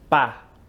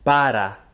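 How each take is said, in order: First: The word is cut short to one syllable. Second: The word is said in full with two syllables.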